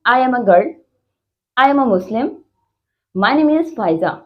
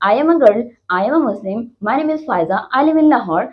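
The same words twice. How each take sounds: First: Put-on long pause after "girl" and after "Muslim"; full-stop pauses. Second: Put-on "I am a girl" running straight into "I am a Muslim"; no full-stop pauses. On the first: Teacher demonstrating full stops, a clear pause after each sentence. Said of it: "तो हम एक pause लेते हैं". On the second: Teacher showing missing full stops, sentences run on without pauses. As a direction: rattle from "girl" to "Lahore" without stopping. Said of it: "full stop नहीं लगाते और ऐसी बात को बोले जाते हैं". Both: Shown as a demonstration.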